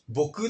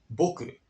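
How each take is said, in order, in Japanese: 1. 上がってから下がらない。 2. 上がってから下がる。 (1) "僕っていうのは違うんですよ" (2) "上がって下がる。"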